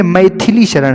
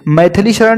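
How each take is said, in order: First: मैथिली Sharan as "maithili sharan"; corrected name. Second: मैथिली Sharan as "maithali sharan"; mispronounced name. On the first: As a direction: put a short i after th in मैथिली. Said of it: "था पे छोटी मात्रा लगेगा". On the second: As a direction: put "tha" in the middle of मैथिली. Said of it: "नहीं है". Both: Shown as a demonstration.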